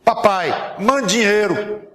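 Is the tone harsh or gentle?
harsh. It is read in a harsh, demanding tone.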